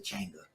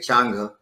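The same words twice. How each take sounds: First: The A is not pronounced as 'ah'. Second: The A is pronounced as an open 'ah'. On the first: "but some people say Changa" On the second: "I say Changa ... I always say ah for the A"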